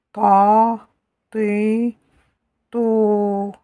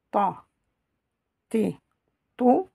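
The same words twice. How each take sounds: First: "Ta. T. To." as held taaa, tiii, touuu; long vowels. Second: "Ta. T. To." as brief ta, ti, tou; short vowels. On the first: Teacher reviews long vowels, drawn-out syllables. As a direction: stretch each vowel in "Ta. T. To.". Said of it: "Avec les voyelles longues". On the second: Teacher reviews short vowels, brief syllables. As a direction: cut each vowel short in "Ta. T. To.". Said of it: "avec les voyelles courtes". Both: Shown as a demonstration.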